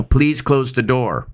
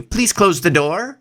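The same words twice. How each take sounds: First: "Please close the door" slow, falling at the end like an order; commanding downward inflection. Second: "Please close the door" slow, pitched higher with a rising end; higher, rising request; rising polite tone. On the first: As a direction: give it as an order. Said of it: "going down tone ... like a command". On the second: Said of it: "compared to". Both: Shown as a demonstration.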